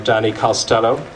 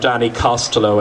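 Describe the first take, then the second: First: The name is pronounced the American way. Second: The name is pronounced the Irish way.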